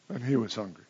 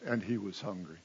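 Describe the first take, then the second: First: Quiet wry deadpan; deadpan repeat. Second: Soft, flat dry delivery; underplay it for irony; dry understatement. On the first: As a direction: let the irony land softly. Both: Shown as a demonstration. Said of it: "understatement of the gospel writers".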